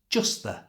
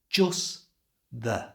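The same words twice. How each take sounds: First: The phrase is said at normal conversational speed. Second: The phrase is said slowly and carefully. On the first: "And at a normal speed" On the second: "So it sounds like this"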